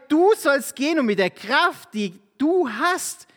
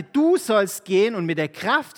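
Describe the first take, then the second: First: Higher, louder, slowing on "die du hast"; preacher stressing "Du sollst gehen"; emphatic reread. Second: Said in the usual way. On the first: Shown as a demonstration. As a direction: press God's command home to the listeners. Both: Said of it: "Vers vierzehn sagt Jahwe".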